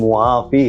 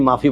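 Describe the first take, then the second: First: The word starts with a 'mua' sound. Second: The word starts with a plain 'ma' sound. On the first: "सही लफ्ज़ तो मुआफ़ी है" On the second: "आज अरब भी माफ़ी बोलता है"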